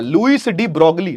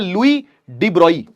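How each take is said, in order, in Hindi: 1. इस सरनेम को कठोर 'gl' आवाज़ के साथ बोला जाता है। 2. इस सरनेम को बिना किसी 'g' की आवाज़ के बोला जाता है। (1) "ऐसे लिखा जाता है" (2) "लेकिन पढ़ा जाता है"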